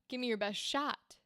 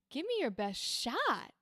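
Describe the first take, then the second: First: The pitch stays level on 'shot'. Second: The pitch goes up on 'shot'.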